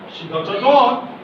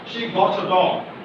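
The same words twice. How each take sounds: First: The voice rises at the end. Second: The voice falls at the end. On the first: It asks a question. "this is rising tone" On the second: It informs someone of a complete fact. "This is falling sound"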